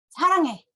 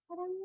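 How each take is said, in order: First: It is said angrily. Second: It is said in a cute, coy way.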